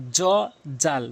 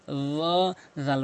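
First: "জ, জাল" with an ordinary j; hard j instead of th in "জ, জাল"; common mispronunciation. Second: "র, জাল" with voiced th, tongue at teeth; correct th. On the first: Retold or imitated. Teacher quoting most people's mistake, j-sound "জ, জাল". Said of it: "তাদের উচ্চারণটাই ভুল". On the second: Shown as a demonstration. Teacher correcting learners, lisped "র, জাল". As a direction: round the "র", thin out "জাল". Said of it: "বলতে হবে".

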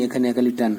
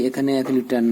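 Both takes have the same delivery.

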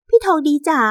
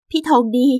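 First: High, wheedling "พี่ทองดีจ๋า"; coaxing mistress. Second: Subdued, hurt "พี่ทองดี"; resigned wife. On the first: Mistress calls to the man she slept with, coaxing. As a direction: coo the name to coax him, high-pitched. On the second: Wife about to leave her husband, resigned. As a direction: say the name as a parting address. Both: Acted.

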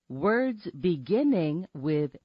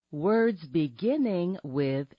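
Both takes have the same delivery.

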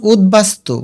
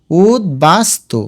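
First: Said in the usual way. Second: উদ্বাস্তু slowly as ud, bas, tu; broken into syllables. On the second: Shown as a demonstration. Teacher telling students to break it up, উদ্বাস্তু slowly in syllables. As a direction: separate every piece of উদ্বাস্তু. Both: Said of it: "ভেঙে লিখো".

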